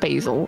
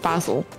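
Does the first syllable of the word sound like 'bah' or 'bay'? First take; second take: bay; bah. First: The first syllable sounds like 'bay'. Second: The first syllable sounds like 'bah'. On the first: The speaker calls it wrong. "It's not basil" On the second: The speaker calls it right. "Bah. As in like bah"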